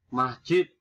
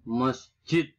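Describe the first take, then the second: First: "Masjid" with a in the first syllable, loud; standard pronunciation. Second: "masjid" with a schwa first; nonstandard pronunciation. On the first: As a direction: say mas-jid for "Masjid". (ucapkan "Masjid" dengan a) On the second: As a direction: say "masjid" slowly as mes-jid. (ucapkan "masjid" menjadi mesjid) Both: Shown as a demonstration. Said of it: "bukan masjid".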